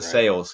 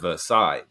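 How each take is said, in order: First: It is said the local Kentucky way. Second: It is said the way the original place says it. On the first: This is how the people who live there say it. "Versailles here" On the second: This is how the place it was named after says it. "instead of Versailles"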